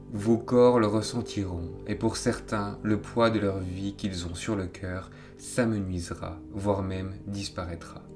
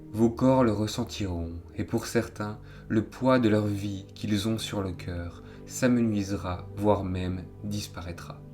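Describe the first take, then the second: Both takes have the same delivery.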